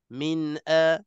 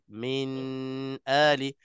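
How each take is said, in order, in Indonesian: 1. Bunyi n langsung masuk ke vokal berikutnya. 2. Bunyi n ditahan sebentar sebelum vokal berikutnya. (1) "dia kena min a min a min a, nun mati dan terus masuk" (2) "Bila kita bagi tempoh, dia akan menyerupai uh, uh, dengung ... maka salah"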